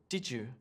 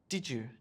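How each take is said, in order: First: The d and y blend into a j sound. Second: The same.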